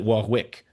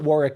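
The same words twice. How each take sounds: First: The middle W is sounded. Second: The middle W is silent. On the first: This is how French Canadians say it. "the French Canadians pronounce it Warwick" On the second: This is how people in the UK say it. "we call it Warwick in the U K. The, the W is silent"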